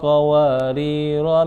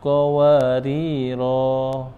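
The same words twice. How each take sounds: First: The final vowel is short, running into the next word. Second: The final vowel is held long before a stop. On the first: The reading continues without stopping. "Jadi kalau dilanjutin jadi pen pendek bacaannya" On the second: The reading stops at this word. "Kalau ketika waqaf maka dibaca panjang"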